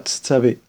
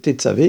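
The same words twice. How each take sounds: First: No vowel is heard after the first consonant. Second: A short vowel is heard after the first consonant. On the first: The speaker calls it wrong. "et pas tetzavé" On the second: The speaker calls it right. "donc c'est tetzavé"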